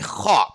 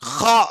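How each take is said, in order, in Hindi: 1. kh ध्वनि अरबी की तरह बोली जाती है। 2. kh ध्वनि अरबी की तरह बोली जाती है।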